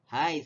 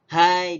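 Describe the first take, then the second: First: The word sounds warm and friendly. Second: The word sounds sharp and scolding. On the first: The speaker is greeting someone not seen for a long time. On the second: The speaker is rebuking someone to get their attention.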